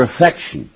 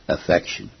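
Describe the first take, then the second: First: Said in the usual way. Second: "Affection" set apart on its own, lower and softer; emphasis on Affection. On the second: Shown as a demonstration. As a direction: say "Affection" alone, low and quiet for weight. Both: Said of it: "Let me emphasize that word".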